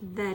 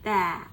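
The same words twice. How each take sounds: First: The vowel is a short, weak schwa. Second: The vowel is a full, open a sound. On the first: "シュワという音になります" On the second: "instead of that"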